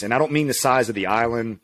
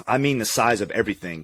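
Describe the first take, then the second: First: Don't leaned on, rest of the line even; stress on don't. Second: Mean leaned on, falling to the end; stress on mean. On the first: Correcting a listener about New Zealand, stress on don't. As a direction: push the word don't to set up the contrast. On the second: Explaining what shocked them about New Zealand, stress on mean. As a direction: lean into mean to land the point. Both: Real, not acted. Contrasting island size with everything.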